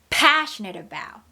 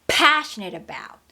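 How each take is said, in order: The two takes are said the same way.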